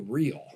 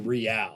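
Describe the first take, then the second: First: It is pronounced the English way, one syllable. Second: It is pronounced the Spanish way, two syllables. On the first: It uses the ordinary local word. The speaker calls it right. "We say real" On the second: It copies a foreign club's name. The speaker calls it wrong. "We don't get to do Real"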